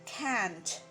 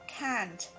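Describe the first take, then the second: No difference in how they are said.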